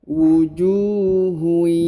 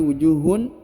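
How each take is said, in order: First: The final n merges into a nasal y glide. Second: The word ends with a clear n sound. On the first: The speaker calls it right. "Huruf tanwinnya menghilang dan melebur ke huruf ya" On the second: The speaker calls it wrong. "bukan lagi wujuhun"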